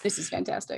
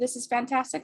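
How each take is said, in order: First: It is said sarcastically, meaning the opposite. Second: It is said sincerely, as if truly pleased.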